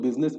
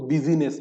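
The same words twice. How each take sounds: First: Said in the usual way. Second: बिजीनेस said in three syllables, bi-zee-ness; business as busy-ness. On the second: Shown as a demonstration. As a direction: sound out busy inside बिजीनेस. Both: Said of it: "कुछ लोग बिजनेस को बिजीनेस कहते हैं".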